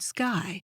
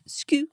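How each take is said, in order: First: The word is said with English pronunciation. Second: The word is said with Danish pronunciation. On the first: It means the sky overhead. "the English word sky" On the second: It means cloud. "The Danish word sky"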